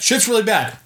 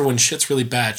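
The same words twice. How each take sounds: First: High-pitched urgent announcement; acted panic, played for laughs; mock alarm. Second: Said in the usual way. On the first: Netflix voiced raising the alarm.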